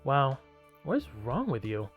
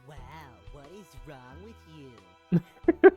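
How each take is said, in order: First: It is said in a normal voice. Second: It is said in a nasal voice.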